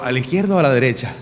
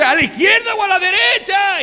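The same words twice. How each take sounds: First: Said in the usual way. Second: Much higher yelled question; husband yelling which way at the light; confused shout. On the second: Retold or imitated. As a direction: yell back, totally lost.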